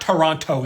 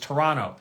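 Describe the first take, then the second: First: The second t sound is clearly pronounced. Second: The second t sound is dropped. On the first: The speaker calls it wrong. "it's not Toronto" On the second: The speaker calls it right. "I don't know what you've done with the extra T"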